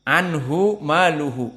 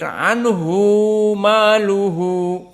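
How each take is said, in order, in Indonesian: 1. Vokal 'hu' pada anhu pendek. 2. Vokal 'hu' pada anhu dipanjangkan. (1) "Anhu-nya di sini dinonaktifkan dari mad silah. ... cepat" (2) "Tidak seperti Ibnu Katsir, ... Karena anhu bagi Ibnu Katsir mad silah"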